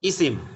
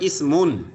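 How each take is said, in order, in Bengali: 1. শব্দটি শেষ হয় একটি খালি ব্যঞ্জন দিয়ে। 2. শব্দটি শেষ হয় একটি যোগ করা 'un' ধ্বনি দিয়ে। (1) "বলার সময় বলতে হবে ইসিম" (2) "শিখার সময় উচ্চারণ করতে হবে ইসমুন"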